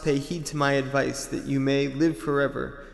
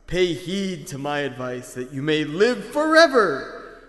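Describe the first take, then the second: First: It is read in the speaker's ordinary voice. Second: It is read in a put-on character voice. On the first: "So you didn't think of a voice for, like, Anki?" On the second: "I'll do an Anki voice"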